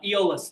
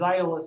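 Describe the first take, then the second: First: The name starts with a plain E sound. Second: The name starts with two vowels said together. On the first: This is the common everyday pronunciation. "is how most people say his name" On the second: This follows the original Greek pronunciation. "because my classical bent"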